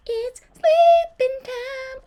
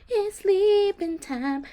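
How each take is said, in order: First: Much higher, slow, louder sing-song. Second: Slow, higher sing-song. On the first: Streamer announces bedtime in the haunted house, high silly sing-song. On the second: Streamer puts her Sim to bed, slow sing-song. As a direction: draw it out like a lullaby chant. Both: Shown as a demonstration.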